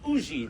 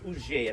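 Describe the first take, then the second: First: The name is said with the local Carolina pronunciation. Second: The name is said with a French pronunciation.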